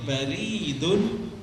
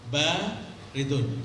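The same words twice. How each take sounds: First: The second vowel, after r, is long. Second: The first vowel, after b, is long. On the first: It means post office. The speaker calls it wrong. "kalau kita rubah yang panjang roknya sehingga menjadi baridun" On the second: It means cold. The speaker calls it right. "Di sini yang panjang ba-nya"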